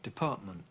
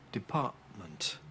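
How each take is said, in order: First: Glottal stops replace both t sounds. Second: A glottal stop replaces the t before m. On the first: This follows the newest trend in the accent. "with another glottal stop at the end as well" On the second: This is how most people normally say it. "as most people normally do, department. That's a glottal stop"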